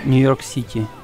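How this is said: The vowels carry a Ukrainian-style e sound. The speaker calls it wrong. "they use e wrong. Uh, like uh, you don't say"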